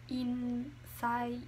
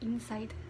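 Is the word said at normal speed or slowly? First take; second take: slow; normal. First: The word is said very slowly. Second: The word is said at normal speed. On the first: "I'm pronouncing it very slowly so you guys can catch up" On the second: "at you know normal speed you would go"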